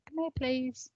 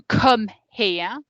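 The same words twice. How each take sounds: First: Softer, gentle please; polite request. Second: Louder, commanding come here; firm order. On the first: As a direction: ask kindly, not ordering. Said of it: "It's very different to". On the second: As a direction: give the order sharply. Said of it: "can be used after an order is given". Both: Shown as a demonstration.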